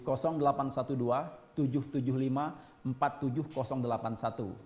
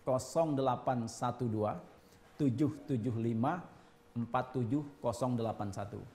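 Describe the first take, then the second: First: The number is read at normal speed. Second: The number is read more slowly.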